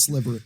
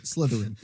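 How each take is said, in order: First: "Slytherin" fumbled as "Sliverin"; mispronounced. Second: Said in the usual way. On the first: Real, not acted. Podcaster fumbles the house name "Slytherin" as "Sliverin".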